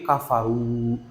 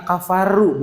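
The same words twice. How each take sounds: First: "kafaru" with the r held back and thickened in the mouth; "kafaru" with a thick r that is barely heard; thick muffled r. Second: "kafaru" with a light, clearly rolled r; "kafaru" as the mistake, with a thin audible r; wrong thin r. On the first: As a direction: swallow the r of "kafaru", heavy and dark. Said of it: "R-nya itu jangan sampai terdengar". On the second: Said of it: "Dibacanya bukan". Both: Shown as a demonstration.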